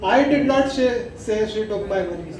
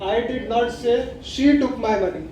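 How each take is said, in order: First: The word I carries the main stress. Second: The word she carries the main stress. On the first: Someone else said it. "आई पे अगर जोर देते हैं" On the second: Someone else took it. "शी के ऊपर अगर आप जोर देते हैं"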